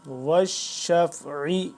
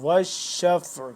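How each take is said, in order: First: The word ends with a short vowel. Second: The word ends on a consonant. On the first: The reading continues without stopping. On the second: The reader stops on this word.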